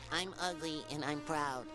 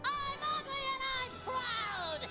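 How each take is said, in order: First: It is said at a quieter volume. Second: It is said much louder, almost shouted.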